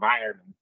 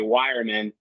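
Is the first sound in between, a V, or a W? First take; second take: in between; W. First: The word begins between a W and V. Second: The word begins with a W sound. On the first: "the way the Germans say it is somewhere in between" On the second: "other Americans say wireman"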